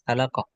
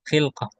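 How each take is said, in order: First: It is said as khalaqah, with an 'a' after kh. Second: It is said as khilqah, with an 'i' after kh. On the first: The speaker calls it wrong. "Antum baca tadi kayaknya apa?" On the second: The speaker calls it right. "Yang benar itu khilqah"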